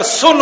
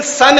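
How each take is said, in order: First: "सुन" with a short oo; u in "सुन" sounded as oo, not uh; spelling pronunciation. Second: Said in the usual way. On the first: Shown as a demonstration. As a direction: say "सुन" with the vowel of put. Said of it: "अगर सुन होना चाहिए". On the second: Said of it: "S यू N सन है".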